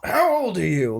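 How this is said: It is asked with shocked, indignant emphasis. The asker rebukes the other for doing this. "It doesn't sound like, Like, you shouldn't be doing this"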